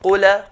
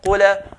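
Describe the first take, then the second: The two takes are said the same way.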